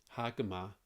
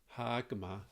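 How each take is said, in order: The two takes are said the same way.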